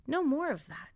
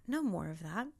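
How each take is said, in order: First: Said in the usual way. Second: Echoed much softer and lower; No more of that. dropped low and soft. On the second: Shown as a demonstration. Speaker to herself, soft low echo.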